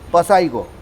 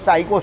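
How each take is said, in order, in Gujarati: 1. આ શબ્દ s પહેલાં p ના અવાજથી શરૂ થાય છે. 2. આ શબ્દ s ના અવાજથી શરૂ થાય છે, p નથી. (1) "નહીં તો શું થાય?" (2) "પી કેવો છે? સાયલન્ટ છે"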